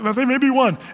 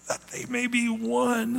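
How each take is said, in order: First: It is said flatly, without strong feeling. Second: It is said with anguish, like crying out. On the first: It is a plain, calm request. The speaker calls it wrong. "It's not like that they may be one" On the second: It is a desperate, heartfelt plea. The speaker calls it right. "he's kind of crying out ... almost in agony"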